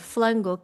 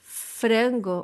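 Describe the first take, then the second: First: The second sound is an L. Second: The second sound is a vibrating R. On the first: "changes the R sound for the L sound" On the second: "the vibrating R sound from frango"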